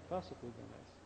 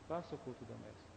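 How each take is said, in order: Both takes have the same delivery.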